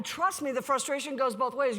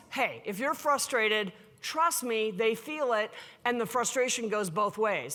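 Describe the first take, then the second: First: Said in the usual way. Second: Calm advice. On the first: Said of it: "And I'm like". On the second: Retold or imitated. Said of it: "And I'm like, always".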